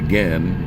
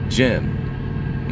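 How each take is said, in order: First: It begins with a hard G sound. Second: It begins with a soft J sound. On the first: The speaker calls it right. "that should be gen" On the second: The speaker calls it wrong. "they pronounce it like a J"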